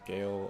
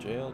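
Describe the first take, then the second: First: The word begins with a hard G sound. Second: The word begins with a soft J sound. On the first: "in certain circumstances it's pronounced Gale" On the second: "it's just jail"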